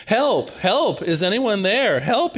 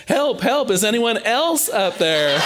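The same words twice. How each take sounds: First: A light, half-acted call for help, a bit higher; calling up the cliff, only mildly hammed-up; mock yell for help. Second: Jack gives up on God and shouts for anyone else; hammed-up yell for help. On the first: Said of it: "Jack begins yelling for help". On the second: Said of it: "Finally, Jack yells".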